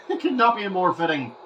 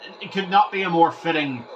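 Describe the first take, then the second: First: Said through a laugh; giggling at the scoreboard. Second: Said in the usual way. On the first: Real, not acted. Repeats line, laughing.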